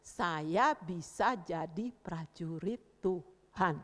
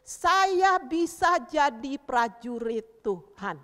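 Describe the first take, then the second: First: Lower, very slow, word by word; measured repeat-after-me. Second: Loud, very slow, word-by-word chant; declaration to repeat. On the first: Teacher repeating the pledge for children, slow and subdued. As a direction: spell out the pledge calmly for children. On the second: Teacher leading children in a pledge, loud slow declaration. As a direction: proclaim it for children to echo. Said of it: "Taruh bilang". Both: Shown as a demonstration.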